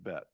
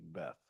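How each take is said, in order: First: The word ends with a plain t sound. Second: The word ends with a th sound.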